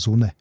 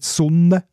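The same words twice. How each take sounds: First: The N is short, Saas style. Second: The N is held long.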